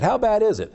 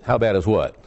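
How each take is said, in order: First: High, eager setup question; pitched-up straight-man question; questioner in joke. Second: Lightly acted low-pitched blank reply; low, mildly puzzled punchline; forgetful reply. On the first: Acted. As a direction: play the other person asking, pitched high. Acts out both sides of joke. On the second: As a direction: drop low for the clueless comeback.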